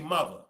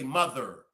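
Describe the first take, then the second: First: It is said in a Baltimore accent. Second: It is said in a general American accent.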